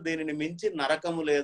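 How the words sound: The break falls after 'minchi', before 'narakamu'.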